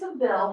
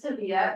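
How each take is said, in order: First: The name ends in a short 'vil' sound. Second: The name ends in a 'vee-ya' sound. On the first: This is how the spelling looks to an English reader. "it looks like Seville" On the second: This is how people in Spain say it. "in Spain they pronounce it Sevilla"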